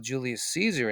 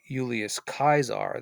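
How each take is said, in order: First: The name is said with English sounds. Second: The name is said with classical Latin sounds.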